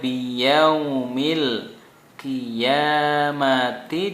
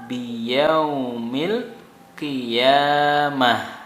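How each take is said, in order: First: The last word ends with a t sound. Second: The last word ends with an h sound. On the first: Reading continues past the word. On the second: Reading stops at the word. "ta dijadikan H karena mati"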